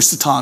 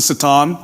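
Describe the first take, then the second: First: It is said with the familiar English pronunciation. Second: It is said with the original Hebrew pronunciation. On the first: "Satan's kind of how we pronounce it" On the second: "it's actually more pronounced the Satan"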